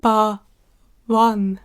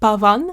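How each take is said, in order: First: The middle consonant sounds like a w. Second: The middle consonant sounds like a v.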